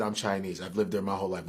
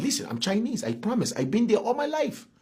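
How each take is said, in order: First: Said in the usual way. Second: Claims Chinese roots in a mock Chinese accent; put-on Chinese accent. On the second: Shown as a demonstration. To his cohost, insisting he's Chinese, mock Chinese accent. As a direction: lay a Chinese accent over the promise. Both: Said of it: "I even have the accent".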